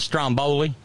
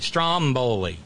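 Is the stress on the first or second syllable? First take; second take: second; first. First: The stress is on the second syllable. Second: The stress is on the first syllable. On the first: It names the local steak sandwich. "putting the emphasis on the next to last syllable" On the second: It names the Italian volcano island. "The stress is on the first syllable"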